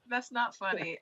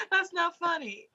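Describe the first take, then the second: First: Softer, sheepish repeat; quiet. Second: Mock scolding. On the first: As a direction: drop the voice, half apologizing. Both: Real, not acted.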